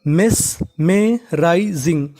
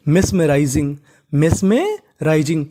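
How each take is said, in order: First: मेस में rising drawn out slowly, syllable by syllable; teacher modelling मेस में rising at half speed; slow spelled-out demo. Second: Said in the usual way. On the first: Shown as a demonstration. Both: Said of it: "तो पूरी meaning".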